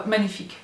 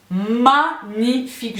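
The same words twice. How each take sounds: First: Said in the usual way. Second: MAGNIFIQUE stretched slowly, syllable by syllable; drawn-out emphasis. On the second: Real, not acted. Praising the vase to viewers, "Magnifique" slow and emphatic. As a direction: draw out each syllable of "Magnifique".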